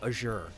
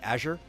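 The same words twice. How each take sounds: First: It is said with a British pronunciation. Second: It is said with an American pronunciation. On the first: "if you are British and you say Azure because of the French influence" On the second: "whether you are American and you say Azure"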